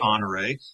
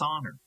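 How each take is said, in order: First: The name is said with three syllables. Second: The name is said with two syllables. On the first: This is how the family said the name. The speaker calls it right. "it's pronounced Honoré" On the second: This is how longtime locals say the name. The speaker calls it wrong. "call it Honor and insist that it's Honor"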